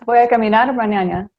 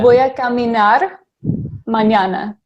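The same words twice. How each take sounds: First: It is said at normal speed. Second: It is said slowly.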